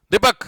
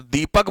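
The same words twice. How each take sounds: First: दीपक rushed with a short "di"; दीपक with no time spent on दी; short first vowel. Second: दीपक with a long, held "dee"; long first syllable. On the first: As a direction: say दीपक quickly, clipping the long ee to a short i. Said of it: "ऐसा बोलते हो?". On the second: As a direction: give दी more time than पक in दीपक. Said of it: "द पे ज्यादा time लगा रहे हो". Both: Shown as a demonstration.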